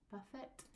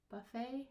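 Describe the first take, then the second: First: "buffet" as BUFF-it, with the final t heard; sounded T. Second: "buffet" as buh-FAY, ending on a long A; silent T. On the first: Teacher showing pronunciations, final t sounded. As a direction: close "buffet" on a t. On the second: Teacher showing pronunciations, silent final t. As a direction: end "buffet" on AY without a t. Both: Shown as a demonstration. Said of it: "pronunciation when you're changing".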